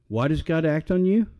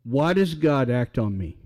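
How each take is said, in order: First: Preacher turns the same question on each listener; call and answer. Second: Preacher asks the congregation about his own case; call and answer. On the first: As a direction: question ending in a rise on you. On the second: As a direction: question with stress on does, falling. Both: Shown as a demonstration.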